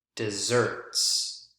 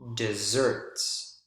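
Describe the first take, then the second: First: The stress is on the second syllable. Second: The stress is on the second syllable.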